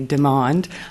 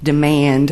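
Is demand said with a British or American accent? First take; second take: British; American. First: The word is said with a British accent. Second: The word is said with an American accent. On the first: "in a British accent" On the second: "Americanized version"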